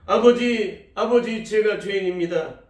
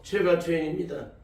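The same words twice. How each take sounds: First: Crying out. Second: Said in the usual way. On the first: Retold or imitated. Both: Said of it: "울부짖으며 외치셨답니다".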